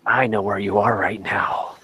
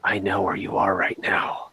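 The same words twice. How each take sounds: First: Low, menacing phone voice; creepy caller. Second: Creepy low whisper. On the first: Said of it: "first thing I say anytime I call". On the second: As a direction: whisper it like a stalker. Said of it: "I pick up the phone and I say". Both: Shown as a demonstration.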